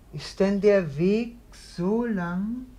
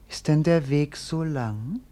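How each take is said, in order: First: Dreamy echo of her voice. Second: Said in the usual way. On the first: Acted. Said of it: "wie sich die Stimme durch den Raum gießt".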